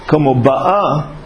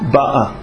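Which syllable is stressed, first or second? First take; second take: second; first. First: The stress is on the second syllable. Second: The stress is on the first syllable. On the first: It is happening right now. "Veim hayata amole mata ba'alef" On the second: It has already happened. "Al principio de la palabra, en el bet"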